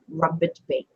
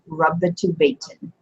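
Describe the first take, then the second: First: Both words end without any added vowel endings. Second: Both words end with added vowel endings. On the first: "You can just say rubbit bait" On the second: "would be if you were like vowing it completely"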